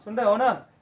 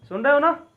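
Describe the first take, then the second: First: Said in the usual way. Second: Raised, higher check-in to the class; louder call. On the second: Shown as a demonstration. Teacher asks students louder if they are listening. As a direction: call it out so the back row hears. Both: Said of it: "जोर से बोल रहा हूँ।".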